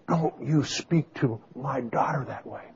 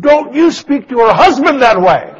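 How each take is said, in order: First: Quiet, restrained scolding of an offended mother-in-law; retold maternal anger. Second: Loud, high-pitched indignant retort; retold angry outburst. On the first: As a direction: imitate a mother's hushed warning. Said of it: "her mother got mad". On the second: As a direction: yell back as an offended husband in a re-enactment. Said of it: "I got mad. I said".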